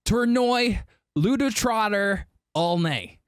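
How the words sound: The name is said with an American pronunciation. "or what the Americans would say"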